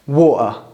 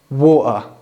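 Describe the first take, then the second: First: The T is replaced by a glottal stop. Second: The T is replaced by a glottal stop.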